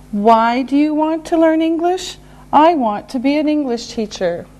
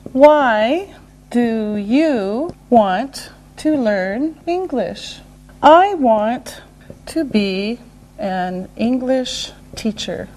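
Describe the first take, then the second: First: Said in the usual way. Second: One careful word at a time; slow right down, separating the words; slow and deliberate. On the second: Shown as a demonstration. Teacher modelling a reason question, slow and separated.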